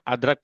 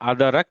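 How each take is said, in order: First: The d has no vowel, giving two syllables. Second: The d carries a vowel, giving three syllables. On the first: The speaker calls it right. "अदरक पढ़ेंगे" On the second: The speaker calls it wrong. "हम इसको अदरक नहीं पढ़ेंगे"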